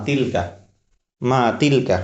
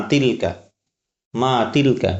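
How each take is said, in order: Both takes have the same delivery.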